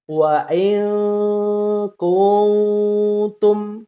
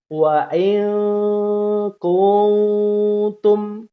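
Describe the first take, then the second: First: The n is blurred into nasal hum immediately. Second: The same.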